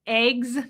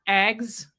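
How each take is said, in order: First: Eggs as AYGS; long ay vowel in eggs, drawn out; own eggs pronunciation. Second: Eggs with a short eh; rejected eggs pronunciation. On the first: Host showing how she says it, AYGS for eggs. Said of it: "I say eggs". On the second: Host showing what she doesn't say, EHGS for eggs. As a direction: open short vowel in eggs. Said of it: "not eggs". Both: Shown as a demonstration.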